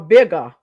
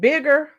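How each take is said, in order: First: The word ends with an open uh sound. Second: The word ends with an r sound. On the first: "Bigger would be B I G G A" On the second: "Bigger is would be B I G G E R"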